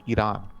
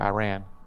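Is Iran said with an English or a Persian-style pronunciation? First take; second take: Persian-style; English. First: It is said with a Persian-style pronunciation. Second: It is said with an English pronunciation. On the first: This is how people from the country say it. "I don't say like Iran" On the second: This is the speaker's usual way of saying it. "I say Iran"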